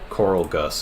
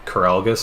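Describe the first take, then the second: First: The name is said as two separate words. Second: The name is said as one single word. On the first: "Coral Gus is probably more likely" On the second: "all one word"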